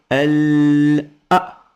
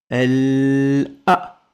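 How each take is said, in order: No difference in how they are said.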